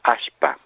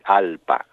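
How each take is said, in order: First: It has a sh sound instead of l. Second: It starts with a vowel and has an l. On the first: "en Santiago del Estero dicen ashpa" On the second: "en Perú dicen alpa, con doble L"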